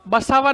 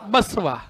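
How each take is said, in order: First: The middle syllable has a long 'aa' vowel. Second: The middle vowel is short or dropped. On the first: The speaker calls it wrong. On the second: The speaker calls it right.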